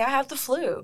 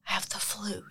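First: The phrase is spoken in a normal voice. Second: The phrase is whispered quietly. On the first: It is something acceptable to admit. "They say" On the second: It is something shameful to admit. "No one really whispers that"

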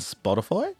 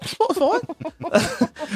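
First: It is said in his usual American accent. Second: It is said in a put-on Cockney accent.

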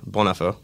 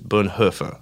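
First: The name is said with a slight French accent. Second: The name is said with a German accent. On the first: "One is a little French" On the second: "One is the real German way"

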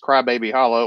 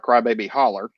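First: The last word ends in a clear 'oh' sound. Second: The last word ends in 'er', Northwest Alabama style.

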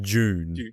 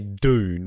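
First: The word begins with a J-like sound. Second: The word begins with a plain D sound. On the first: This is how the speaker's own group says it. "We say like June" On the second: This is how the other person says it. "you say Dune"

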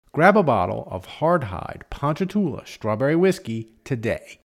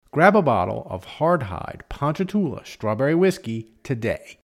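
Both takes have the same delivery.

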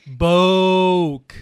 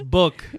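First: The word is said in a mocking, odd way. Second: The word is said in a standard way. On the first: It imitates how someone else says it. The speaker calls it wrong. "I don't care how your mom says it" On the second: It is the proper way to say it. The speaker calls it right. "It's book"

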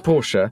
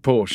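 First: The name is given its German pronunciation. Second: The name is given an anglicized pronunciation. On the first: The speaker calls it right. "it should be Porsche" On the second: The speaker calls it wrong. "then I slip into Porsche and then get told off"

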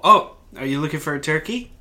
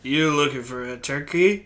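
First: It is said in a plain, ordinary voice. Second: It is said in a smooth, suave cool-guy voice.

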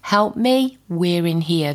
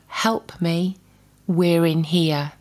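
First: It is said with a desperate tone. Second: It is said plainly, without desperation.

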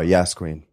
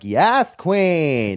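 First: It is said in a flat, matter-of-fact voice. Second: It is said in an exaggerated, put-on voice. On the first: "it's funnier to just not put that into it at all. ... Just like it's a meeting" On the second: "with my roommate, I'll be like"

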